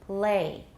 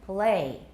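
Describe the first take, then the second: The two takes are said the same way.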